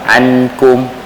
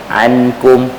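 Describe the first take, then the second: First: The n is fully pronounced with tongue contact. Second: The n is fully pronounced with tongue contact.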